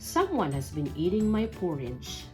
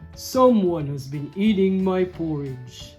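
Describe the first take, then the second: First: It is said in a middle-sized voice. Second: It is said in a great big voice.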